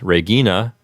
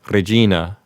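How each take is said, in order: First: The G is hard and the R unrolled. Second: The G is soft and the R rolled.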